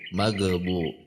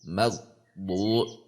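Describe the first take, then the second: First: The gh sound bounces before the next syllable. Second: The gh sound is pressed and cut off. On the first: "ada yang memantul" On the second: "ditekan namanya, itu tidak"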